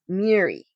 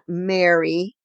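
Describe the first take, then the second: First: The name rhymes with Siri. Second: The name sounds like Mary. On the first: The speaker calls it right. "It's Miri, like Siri" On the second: The speaker calls it wrong. "not Mary, like the mother of Jesus"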